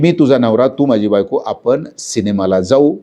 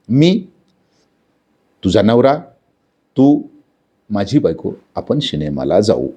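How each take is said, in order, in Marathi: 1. "मी" नंतर विराम नाही, शब्द एकामागून एक येतात. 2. "मी" नंतर आणि "तू" नंतर विराम आहेत. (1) "पहिल्या पद्धतीनं" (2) "जर आपण विरामचिन्हे वापरली"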